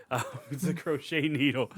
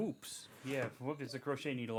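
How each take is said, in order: First: Laughing through "it's a crochet needle". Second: Much softer, pulled-back correction on "crochet needle"; quiet. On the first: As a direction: giggle while correcting yourself. Laughs at own mistake. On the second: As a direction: drop to a hushed, sheepish voice. Apologizes after getting too excited. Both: Real, not acted.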